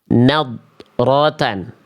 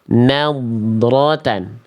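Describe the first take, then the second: First: The heavy d sound is cut off from the r. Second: The heavy d flows smoothly into the r. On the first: The speaker calls it wrong. "tapi dia terputus bunyinya dengan huruf ro" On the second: The speaker calls it right. "terhindar dari putus, memantul, dan nggak tipis"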